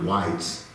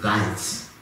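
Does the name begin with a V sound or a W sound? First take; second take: W sound; V sound. First: The name begins with a W sound. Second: The name begins with a V sound. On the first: This is not how it is said in German. The speaker calls it wrong. "not Weitz" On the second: This is how it is said in German. The speaker calls it right. "in German it's pronounced Weitz"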